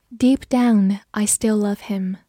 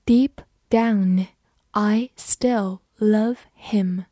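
First: Said in the usual way. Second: Slow, word by word, for students to follow; slow reading. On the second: Shown as a demonstration. Teacher reads the sentence slowly for students. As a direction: read it slowly so learners can repeat. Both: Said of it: "好，慢慢来读".

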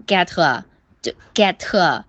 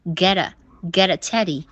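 First: "get" followed by a hard T and heavy Chinese 饿 sound; heavy wrong "a". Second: "get a" flapped, with a quick weak uh; light short "a". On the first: Teacher showing an ugly wrong reading, heavy uh. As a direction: say "get" as get-TUH, the added vowel too long. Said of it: "那个a就变成我饿了那种饿的音". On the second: Teacher showing the quick short a, light flapped linking. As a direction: flick through "get a" as geh-duh. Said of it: "快速的把这个轻轻短短的a发过去". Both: Shown as a demonstration.

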